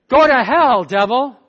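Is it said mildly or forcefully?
forcefully. It is said forcefully, with strong conviction.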